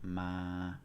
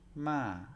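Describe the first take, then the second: First: The pitch stays level in the middle. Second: The pitch drops from high to low. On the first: "no tone, which is ma. It's monotone" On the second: "then we have falling tone"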